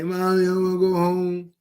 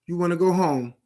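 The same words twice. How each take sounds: First: Put-on whiny kid begging mommy; mock a scared kid crying for mommy. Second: Said in the usual way. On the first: Speaker mimics inmate calling his mom, mock whiny child. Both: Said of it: "You calling your mommy and daddy".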